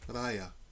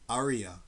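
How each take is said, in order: First: It is said in the speaker's local accent. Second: It is said in an American accent.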